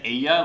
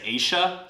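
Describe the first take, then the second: First: The double L sounds like a 'y'. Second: The double L sounds like 'sh'. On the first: "instead of saying ella" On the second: "they say Aisha"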